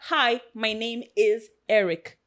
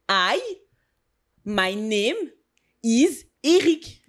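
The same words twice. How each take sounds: First: It is spoken with an American accent. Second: It is spoken with a French accent. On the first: This is not how a French speaker would say it. The speaker calls it wrong. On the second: This is how a French speaker would say it. The speaker calls it right. "si t'aurais dit"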